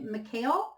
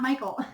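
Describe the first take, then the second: First: The name sounds like Mikhail, ending in -ail. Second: The name sounds like the usual English Michael. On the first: "I almost feel like it's M I K A I L" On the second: "They're saying it's not pronounced Michael"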